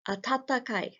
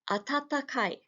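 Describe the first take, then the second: Both takes have the same delivery.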